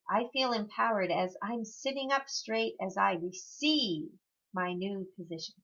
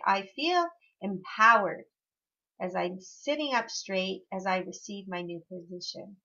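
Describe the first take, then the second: First: The word receive carries strong emphasis. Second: The word receive carries no special emphasis. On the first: "the next time you might put emphasis on receive" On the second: "your first time through"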